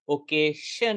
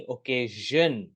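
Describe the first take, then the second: First: ओकेशन ending in an unvoiced "shun"; wrong SH sound. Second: ओकेजन slowly, ending in a buzzing "zhun"; voiced ZH. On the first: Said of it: "नहीं". (ओकेशन में "श" बोलें) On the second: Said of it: "उसका sound होगा ज". (ओकेजन में "झ़" जैसी ध्वनि धीरे बोलें) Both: Shown as a demonstration.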